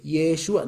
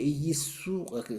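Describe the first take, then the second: First: Yeshua as ye-SHU-a, with a clear sh; model pronunciation. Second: Yeshua as yi-SU-a, sh lost to plain s; Greek speaker failing. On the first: Shown as a demonstration. Teacher prompting a Greek to repeat, Yeshua with clear sh. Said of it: "a ver, repite". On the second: Retold or imitated. Teacher imitating a Greek unable to repeat, Yeshua as yi-sua. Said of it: "no puede decir".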